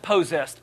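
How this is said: It is said with an exaggerated Southern pronunciation. The speaker calls it wrong. "Don't pronounce it possessed. People are going to think you're crazy or from the deep, deep south"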